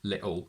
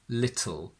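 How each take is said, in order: First: The t is replaced by a glottal stop. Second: The t is released sideways straight into the l. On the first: "they use a glottal stop" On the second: "drop the sides of your tongue so the l sound also comes out"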